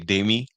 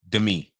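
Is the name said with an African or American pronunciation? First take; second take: African; American. First: The name is said with an African pronunciation. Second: The name is said with an American pronunciation. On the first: "we say" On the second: "they say "Demi," like Demi Moore"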